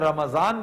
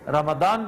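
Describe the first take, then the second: First: The middle consonant is a z sound. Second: The middle consonant is a d sound. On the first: "ज़्वाद और द्वाद के मामलात अलग हैं, वो आप कह सकते हैं, रमजान भी कह सकते हैं" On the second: "रमदान भी कह सकते हैं। मुनासिब तरीन रमदान है"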